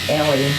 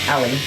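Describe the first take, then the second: First: The first vowel is an E sound. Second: The first vowel is an A sound. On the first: The speaker calls it right. "with the E sound" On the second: The speaker calls it wrong. "Always comes out with an A sound"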